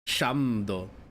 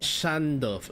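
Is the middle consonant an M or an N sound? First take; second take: M; N. First: The middle consonant is an M sound. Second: The middle consonant is an N sound. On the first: "she's not saying Shamdo" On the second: "she's saying"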